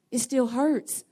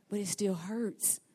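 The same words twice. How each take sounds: First: HURTS pushed higher and firmer; insistent, raised stress on "hurts"; emphatic repeat. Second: Soft, slow, subdued delivery; subdued admission. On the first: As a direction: lift and lean on "hurts". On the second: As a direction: drop softer and draw out the hurt. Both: Acted. Repeats the line for effect.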